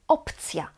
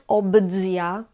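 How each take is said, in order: First: The middle consonants are voiceless, like p and c. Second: The middle consonants are voiced, like b and dz. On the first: The speaker calls it right. "is still pronounced voiceless" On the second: The speaker calls it wrong. "It's not"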